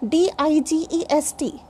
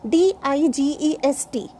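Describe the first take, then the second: The two takes are said the same way.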